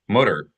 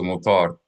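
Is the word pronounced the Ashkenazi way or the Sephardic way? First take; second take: Ashkenazi; Sephardic. First: It is said with an Ashkenazi-style pronunciation. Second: It is said with a Sephardic-style pronunciation. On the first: The speaker calls it wrong. "if we mispronounced it as mutter" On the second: The speaker calls it right.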